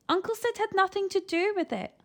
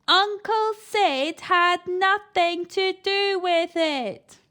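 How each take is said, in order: First: Put-on lying boy. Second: Loud repeat. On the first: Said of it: "lied Eric". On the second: Eric repeats loudly to deaf grandma. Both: A narrator's reading.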